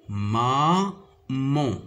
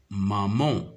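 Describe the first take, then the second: First: "maman" split as ma, pause, man; syllable by syllable. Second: Said in the usual way. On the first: Shown as a demonstration. Teacher showing pupils two syllables in "maman", syllable by syllable. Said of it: "se compose de deux syllabes". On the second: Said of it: "Le mot maman".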